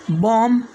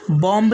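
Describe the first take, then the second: First: बॉम्ब said as "bom", ending on M; silent B. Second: बॉम्ब said as "bom-b", B sounded; wrong pronunciation with B. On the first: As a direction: drop the final B of बॉम्ब. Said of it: "इस तरह से इसे pronounce करना है". (बॉम्ब को 'बॉम' बोलें, 'ब' नहीं) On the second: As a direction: close बॉम्ब on an audible B. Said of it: "बॉम्ब नहीं पढ़ना है". (बॉम्ब के अंत में 'ब' बोलकर) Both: Shown as a demonstration.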